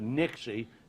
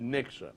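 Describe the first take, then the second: First: The name ends with an 'ee' sound. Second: The name ends with an 'uh' sound. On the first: This is the original local name. "That's why I say Nixie" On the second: This is the changed name. "changed his name to Nixa"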